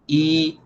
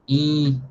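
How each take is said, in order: First: The vowel is oral and open, without nasal resonance. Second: The vowel is closed and nasalized through the nose. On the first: "O som é, é mais aberto" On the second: "o som ele é fechado porque ele é nasalizado"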